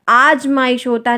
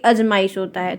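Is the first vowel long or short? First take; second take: long; short. First: The first vowel is long. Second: The first vowel is short. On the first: The speaker calls it right. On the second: The speaker calls it wrong. "ना कि"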